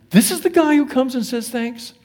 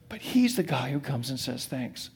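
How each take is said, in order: First: Higher, stressing "the" in "This is the guy"; incredulous about the one who came back; startled emphasis. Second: Much softer, stressing "he's" in "But he's the guy"; quiet, sincere emphasis; soft restatement. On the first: Retold or imitated. Jesus marveling at the grateful outsider, higher and incredulous. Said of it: "Jesus was startled". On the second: Shown as a demonstration. Preacher to congregation, repeating the point softly. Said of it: "preacher restates softly".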